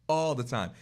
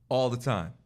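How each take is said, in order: Both takes have the same delivery.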